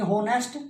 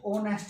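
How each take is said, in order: First: Wrong 'honest', h pronounced; honest with h sounded. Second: 'honest' starting on the o; honest with silent h. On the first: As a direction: say 'honest' as spelt, with h. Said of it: "होना चाहिए था आपके according". ('होनेस्ट', 'ह' के साथ गलत) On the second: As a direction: drop the h in honest. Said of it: "एच silent". ('ओनेस्ट', 'ह' silent) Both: Shown as a demonstration.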